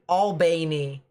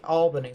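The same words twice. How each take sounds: First: It is said the Southern, Georgia way. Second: It is said the Northern way. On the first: "So you guys pronounce it Albany" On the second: "up north, they pronounce it Albany"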